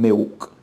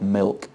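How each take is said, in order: First: The l sounds like a u vowel. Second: The l is a clear l consonant. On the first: "the l is almost pronounced like a vowel, almost like a u sound" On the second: "not a l sound"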